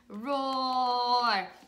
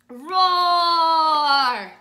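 First: It is said at normal speaking volume. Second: It is said loudly and strongly.

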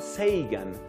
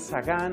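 First: The name is said the common North American way. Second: The name is said in a non-North American way. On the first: "que parece que es la pronunciación norteamericana más común" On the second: "Algunos dicen Sagan"

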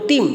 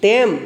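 First: The word is pronounced with an 'ee' vowel. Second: The word is pronounced with an 'e' vowel.

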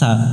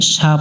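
First: The first consonant is a lisped th. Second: The first consonant is a plain hissing s. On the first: The speaker calls it right. "এই অক্ষরটা শীষ দিয়ে পড়তে হয়" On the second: The speaker calls it wrong. "সা পড়া যাবে না"

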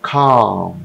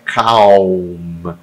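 First: The L sound is very light, barely heard. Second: The L sound is clearly and fully pronounced. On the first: The speaker calls it right. "Eu tenho um L aqui, mas eu não pronuncio ele inteiramente. Ele é só um detalhezinho. É super leve" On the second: The speaker calls it wrong. "Não é calm"

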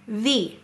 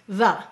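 First: The vowel is a full, long sound. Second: The vowel is a short, reduced sound. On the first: "A-E-O-U usually say their long sounds at the end of the syllable" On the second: "But it's saying it's lazy sound"

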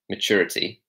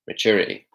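First: The T sound is clearly pronounced. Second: The T sound is dropped. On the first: "instead of saying maturity" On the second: "he reduces it to maturity"

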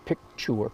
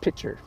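First: The word has a clear k sound before 'ch'. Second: The word has no k sound before 'ch'. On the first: The speaker calls it right. "The correct word is picture" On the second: The speaker calls it wrong. "I mispronounce it pitcher"

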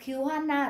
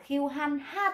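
First: The h sound is dropped, sounding like n. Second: The h sound is clearly pronounced after the n. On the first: "họ đọc nhanh, họ đọc lướt qua cái thằng này luôn" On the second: "họ không đọc là khiêu hoan ha tả như chúng ta"

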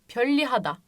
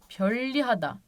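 First: The middle sounds like a double L. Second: The same.

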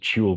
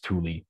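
First: It is pronounced the way the spelling suggests. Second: It is pronounced the accepted local way. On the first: The speaker calls it wrong. "You might pronounce it Tule when you read it" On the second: The speaker calls it right. "but apparently it's Tule"

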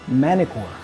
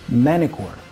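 First: The T is dropped after the N. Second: The same.

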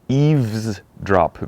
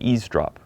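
First: The v sound in the middle is pronounced. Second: The v sound in the middle is dropped. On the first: "원래 그 철자 보면은 eavesdrop, V 들어가는데" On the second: "빨리 말할 때 그냥 eavesdrop. 그냥 그 V 없듯이"

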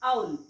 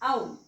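First: The vowel sounds like 'ow' as in 'cow'. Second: The same.

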